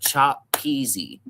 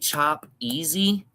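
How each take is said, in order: First: The second word starts with a P sound. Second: The second word starts with a vowel. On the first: "instead of chop peasy. There, you have to put that P before it" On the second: "you say chop easy"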